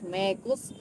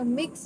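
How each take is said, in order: First: Said with an Indian accent, stretched to two syllables. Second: Said plainly, as one short syllable.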